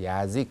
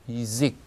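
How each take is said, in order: First: The first vowel is a full 'ya'. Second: The first vowel sounds like 'i'. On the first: The speaker calls it wrong. "야직 그러지 않고" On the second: The speaker calls it right. "이직 이렇게 합니다"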